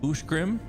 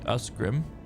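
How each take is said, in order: First: The middle consonant is a 'sh' sound. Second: The middle consonant is an 's' sound. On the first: The speaker calls it right. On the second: The speaker calls it wrong.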